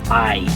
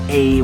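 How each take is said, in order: First: The vowel sounds like the word eye. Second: The vowel sounds like the one in hey. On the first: It is said the Spanish way. The speaker calls it right. "we say I" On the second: It is read as if it were an English word. The speaker calls it wrong. "we'd probably say a, like in the word hey"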